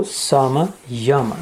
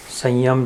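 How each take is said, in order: First: समयम drawn out very slowly as सम, then यम; split into parts. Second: Said in the usual way. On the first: Shown as a demonstration. Teacher taking the compound apart, समयम very slowly split in two. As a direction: stretch समयम into two separate words, सम and यम. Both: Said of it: "उसका संधि विग्रह होता है".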